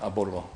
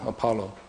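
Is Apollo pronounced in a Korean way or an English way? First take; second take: Korean; English. First: The name is said with Korean pronunciation. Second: The name is said with English pronunciation. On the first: "Apollo in Korean, or Apollo in in Korean Bible. They say Apollo" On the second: "English pronunciation is uh, Apollo"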